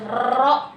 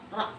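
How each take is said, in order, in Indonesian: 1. Huruf r digetarkan beberapa kali. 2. Huruf r digetarkan hanya sekali. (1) "tidak boleh ro begitu" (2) "ada getaran tapi cuma satu kali getaran aja"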